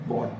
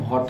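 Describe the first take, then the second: First: The word is said softly and lightly. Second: The word is said with heavy force. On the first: The speaker calls it right. "वॉट बोलना है" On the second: The speaker calls it wrong. "बहुत नहीं बोलना है"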